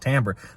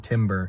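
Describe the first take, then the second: First: The first syllable sounds like 'tam', not 'tim'. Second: It sounds like the word timber, with 'tim'. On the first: The speaker calls it right. "you should know that it's pronounced timbre" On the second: The speaker calls it wrong. "I've literally heard musically intelligent people say timber"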